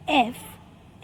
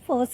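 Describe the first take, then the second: First: A vowel comes before the f sound. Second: The f sound is said alone without a vowel. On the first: "इसका pronunciation हम एफ ऐसे कर सकते हैं" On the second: "या फिर सिर्फ फ से कर सकते हैं"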